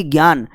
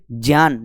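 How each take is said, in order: First: "ज्ञान" said as "gyaan"; "ज्ञान" opening on g, as commonly said; wrong pronunciation. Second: "ज्ञान" said as "jyaan"; correct pronunciation. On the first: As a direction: say "ज्ञान" with a hard g plus y. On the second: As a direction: lower "ज्ञान" starting on j. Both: Shown as a demonstration. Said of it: "न कि ज्ञान".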